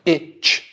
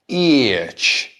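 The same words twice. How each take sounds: First: The word has a short, plain vowel. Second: The vowel is drawn out with extra gliding sounds. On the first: This is the British way of saying it. "They don't go itch, you know, itch, two sounds" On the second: This is the American way of saying it. "American English is more itch"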